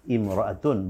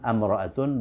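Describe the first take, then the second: First: The word begins with an 'i' sound. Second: The word begins with an 'a' sound. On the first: The speaker calls it right. "hamzah wasal dibaca i" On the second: The speaker calls it wrong. "bukan amra'atun"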